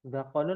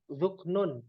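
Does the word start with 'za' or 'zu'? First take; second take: za; zu. First: The word begins with a 'za' sound. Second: The word begins with a 'zu' sound. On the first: The speaker calls it wrong. "Zakonun apa zuk zuknun?" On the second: The speaker calls it right. "yang betul zuknun ya"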